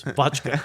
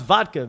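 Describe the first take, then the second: First: "vodka" insisted on as VOTCH-kuh; "vodka" with ch in place of d; Mary's pronunciation. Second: "vodka" with a clear D, VOD-kuh; correcting pronunciation. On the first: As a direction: imitate her "ch" in the middle of "vodka". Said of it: "That's how it's pronounced". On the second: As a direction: correct it firmly to "vodka" with d before k. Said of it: "V O D". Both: Retold or imitated.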